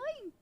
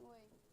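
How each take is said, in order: First: It is said in a cheerful, friendly way. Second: It is said in a grumpy, sullen way.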